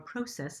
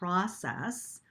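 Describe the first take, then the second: First: It is said the Canadian way. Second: It is said the usual, non-Canadian way.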